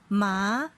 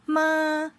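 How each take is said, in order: First: The pitch rises from middle to high. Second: The pitch stays high and level. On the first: "they have rising tone" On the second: "they have the high flat level of the tone"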